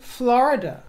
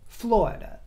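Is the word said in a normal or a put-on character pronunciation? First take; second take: normal; put-on. First: It is said in the speaker's ordinary pronunciation. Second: It is said in an imitated character's pronunciation.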